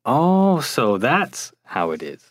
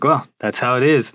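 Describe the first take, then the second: First: It sounds like a sudden new realization. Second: It sounds flat and matter-of-fact, already known.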